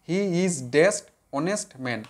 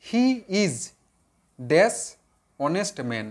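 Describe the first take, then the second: First: "he is dash honest man" very slow, word by word; slow it right down so they can write; slow dictation. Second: Said in the usual way. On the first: Shown as a demonstration. ("he is dash honest man" খুব ধীরে, শব্দে শব্দে) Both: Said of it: "আবার দেখো".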